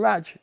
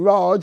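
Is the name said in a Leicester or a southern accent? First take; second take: Leicester; southern. First: The name is said in a Leicester accent. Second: The name is said in a southern English accent. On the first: The speaker's own regional way of saying it. "and I call him Raj" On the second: Southern speakers say it this way. "my friends from south call him Raj"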